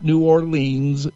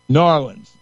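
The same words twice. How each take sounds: First: The name is said in a non-local way. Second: The name is said the way locals say it. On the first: The speaker calls it wrong. "It's not New Orleans" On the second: The speaker calls it right. "You got to say it right. New Orleans is how they say it"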